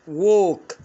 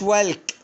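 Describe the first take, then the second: First: The l sound is silent in the word. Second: The l sound is pronounced in the word. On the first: The speaker calls it right. "ووك يعني يمشي" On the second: The speaker calls it wrong. "ما قلتش والك"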